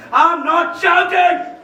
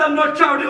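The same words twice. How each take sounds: First: "I'm not shouting" yelled, drawn out on shouting; shouting denial. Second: Said in the usual way. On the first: Acted. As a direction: yell that he is not yelling. (चिल्लाकर "I'm not shouting")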